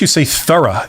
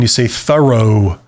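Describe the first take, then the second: First: It is said with a British accent. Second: It is said with an American accent.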